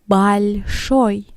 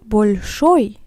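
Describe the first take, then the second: First: The unstressed o is changed from its written sound. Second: The unstressed o sounds exactly as written. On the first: The speaker calls it right. "People would usually pronounce it as" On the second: The speaker calls it wrong. "is never read this way"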